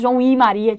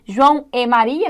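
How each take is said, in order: First: The linking word is pronounced with an i vowel. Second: The linking word is pronounced with an e vowel. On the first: "eu posso falar João e Maria, de tão fraquinho que é" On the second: "Aqui eu digo E"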